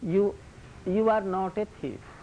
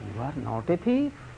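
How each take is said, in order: First: The voice falls at the end like a statement. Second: The voice rises at the end like a question. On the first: The person is not a thief. "This means that you are not a thief" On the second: The person is in fact a thief. "What is the meaning?"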